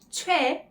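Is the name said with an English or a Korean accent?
Korean. It is said with native Korean sounds. The speaker calls it right.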